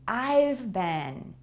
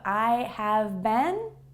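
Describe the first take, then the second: First: The word have is contracted to 've. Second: The word have is said in full. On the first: "a faster, more native-like way to say I have been" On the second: "Instead of I have been"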